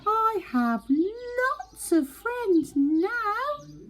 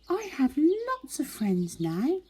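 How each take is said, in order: First: It is said very loudly. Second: It is said at a normal, softer volume.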